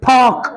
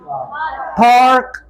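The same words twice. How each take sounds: First: The r is dropped, with a puff of air. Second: The r is clearly pronounced after the vowel. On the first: "British में बोलेंगे पार्क" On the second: "American ... आर को अच्छी तरह से produce करेंगे"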